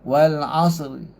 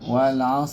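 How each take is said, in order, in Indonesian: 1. Ada vokal pendek yang sangat samar setelah r. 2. Kata ini berakhir pada r tanpa vokal. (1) "tapi sikit je kan" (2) "tu waqaf biasa, tak special"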